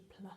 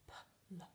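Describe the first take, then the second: First: Said in the usual way. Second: Whispered, slow pl; pl said slowly. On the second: Shown as a demonstration. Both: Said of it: "say it very slowly".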